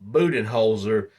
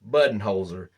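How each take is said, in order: First: The first syllable does not sound like 'bud'. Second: The first syllable sounds like the word 'bud'. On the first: "if you're going to pronounce his name Budenholzer, then he can't be Coach Bud" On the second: "If he's Coach Bud, his name should be pronounced Budenholzer"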